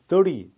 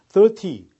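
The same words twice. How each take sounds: First: The t is flapped, sounding like a soft d. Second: The t is pronounced as a clear t. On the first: "T가 거의 리의 발음으로 굴려서 발음되죠" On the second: "정확하게 발음되는 영국식 발음입니다"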